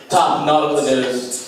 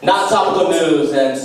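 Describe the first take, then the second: First: Slow pun reveal. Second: Said in the usual way. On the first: Shown as a demonstration. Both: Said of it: "a new segment that's called".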